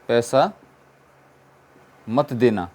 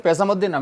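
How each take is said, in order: First: पैसा, a long pause, then मत देना; teacher spacing out the example sentence; slow, split apart. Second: Said in the usual way. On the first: Shown as a demonstration. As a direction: break पैसा ... मत देना into slow chunks for the class.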